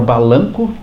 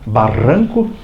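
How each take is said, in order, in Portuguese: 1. A consoante do meio é um som de L. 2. A consoante do meio é um R vibrante. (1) "eu falava balanco" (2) "Eu não conseguia falar barranco"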